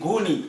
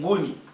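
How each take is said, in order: First: The name begins with a plain g sound. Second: The name begins with a nasal ng sound. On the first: This is how English speakers say it. The speaker calls it wrong. "the English Bible will say the, the Guni" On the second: This is how the people themselves say it. The speaker calls it right. "they're actually Nguni"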